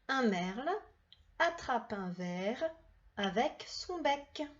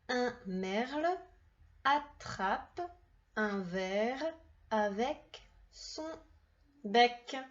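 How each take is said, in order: First: The sentence is read at a faster pace. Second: The sentence is read at a slower pace.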